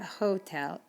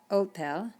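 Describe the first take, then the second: First: The word starts with an audible H sound. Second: The word starts with no H sound. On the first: The speaker calls it wrong. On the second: The speaker calls it right.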